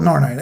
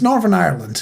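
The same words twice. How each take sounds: First: "Northern Ireland" with the "th" dropped, quickly; shortened pronunciation. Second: "Northern Ireland" with every syllable sounded; full pronunciation. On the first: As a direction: say "Northern Ireland" run together as "Norn Ireland". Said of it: "I keep on shortening it". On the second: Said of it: "why do I call it Northern Ireland?". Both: Shown as a demonstration.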